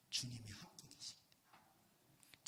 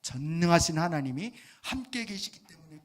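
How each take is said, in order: First: Whispered answer. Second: Firm, louder declaration stressing 함께; emphatic declaration. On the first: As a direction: whisper it, much lower and slower. Quiet answer before emphatic repeat. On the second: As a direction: proclaim it with full force. Emphatic repeat after whisper. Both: Acted.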